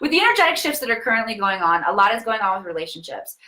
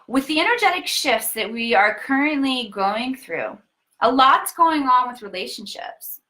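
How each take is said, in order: First: It is read in a plain, normal speaking manner. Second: It is read in a deliberate, performed reading style.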